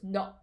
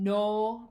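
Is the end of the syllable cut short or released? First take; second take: cut short; released. First: The syllable is cut short with a stop. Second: The syllable ends openly without a stop. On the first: The speaker calls it right. "you actually add a little bit of a stop" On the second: The speaker calls it wrong. "instead of saying no, right, with that no sound at the end"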